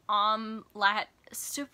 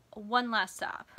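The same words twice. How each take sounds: First: "Um, lat, stup" sounded out loudly as misspelt; excited typo read aloud. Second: Said in the usual way. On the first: Shown as a demonstration. Reader mocking her own all-caps typo of the title, garbled and loud. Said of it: "so excited that I typed". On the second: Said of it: "I was trying to type".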